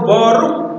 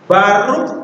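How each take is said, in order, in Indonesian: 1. Vokal pertama adalah bunyi o bulat. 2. Vokal pertama adalah bunyi a terbuka. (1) "Kapan kita membaca ini sebagai O? Kalau suku katanya tertutup" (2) "Kan ini bisa O, bisa A ya"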